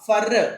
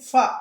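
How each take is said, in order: First: The word ends with an audible R sound. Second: The word ends on a vowel with no R. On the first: The speaker calls it wrong. "ఎఫ్ఓఆర్ ఫర్ కాదు" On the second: The speaker calls it right. "ఆర్ నేను silent చేసేసాను, అందుకని ఫ అంటున్నాను"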